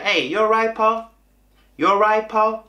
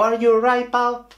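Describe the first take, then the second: First: High, run-together Manchester greeting; Manchester accent. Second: "Are you alright" with the "Are" fully said, pitched up; careful textbook English. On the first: Waiter greets customers as locals do, Manchester accent. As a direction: copy the Mancunian "you alright, pal", pitched up. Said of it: "Yo decía". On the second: Waiter greets a restaurant customer, careful textbook English. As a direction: say "Are you alright, pal" in full, higher. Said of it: "yo no decía". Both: Shown as a demonstration.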